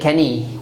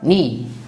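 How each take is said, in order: First: The word begins with a pronounced K sound. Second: The word begins directly with the N sound. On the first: The speaker calls it wrong. "We do not say Kani" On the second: The speaker calls it right. "We say what? Ni"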